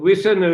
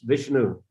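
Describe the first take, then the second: First: It is said with a Thai pronunciation. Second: It is said with a Sanskrit pronunciation. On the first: "Vishnu is Thai pronunciation" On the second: "if they read it in a proper way, as Sanskrit should be read"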